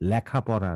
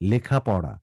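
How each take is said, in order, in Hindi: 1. पहला स्वर खुला है, जैसे 'lya'। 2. पहला स्वर बंद 'e' ध्वनि है। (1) "লেখাপড়া না।" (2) "উচ্চারণটি হচ্ছে লেখা, লেখাপড়া"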